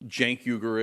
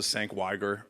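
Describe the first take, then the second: First: The name is said in its own pronunciation. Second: The name is said in an imitated pronunciation. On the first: This is the name as its owner says it. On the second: This is how others would have said the name.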